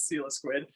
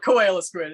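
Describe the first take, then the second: First: The name begins with a 'seal' sound. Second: The name begins with a 'koala' sound. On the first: The speaker calls it right. "it's Seal Squid" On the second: The speaker calls it wrong. "it's not Koala Squid"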